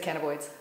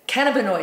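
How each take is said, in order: First: The word begins sounding like 'cannibal'. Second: The word begins sounding like 'canna'. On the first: The speaker calls it wrong. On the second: The speaker calls it right.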